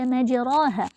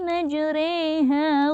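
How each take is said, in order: First: The vowel after 'majr' is a plain open 'a'. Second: The vowel after 'majr' leans toward an 'e'. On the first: The speaker calls it wrong. "tidak lagi dibaca majraha" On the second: The speaker calls it right. "tapi dibaca"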